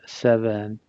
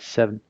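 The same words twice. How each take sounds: First: The word is said with two clear syllables. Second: The word is run together, almost one syllable. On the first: The speaker calls it right. "the two syllables is what makes this one important" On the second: The speaker calls it wrong. "Not seven"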